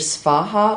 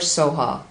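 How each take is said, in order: First: A v sound follows the s. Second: No v sound follows the s. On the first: "You can say Svaha" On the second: "Tibetans do not have a V sound in their language, in their alphabet. So they say Soha"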